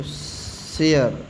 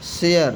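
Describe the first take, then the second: First: share stretched very slowly, "she-e-yar"; slow drawn-out repeat. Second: share said clearly as "sheyar"; teacher's model word. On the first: Teacher repeating share slowly so students copy. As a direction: drag out share syllable by syllable. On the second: Teacher modelling share for students, clear and careful. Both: Shown as a demonstration. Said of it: "क्या पढ़ेंगे इसको?".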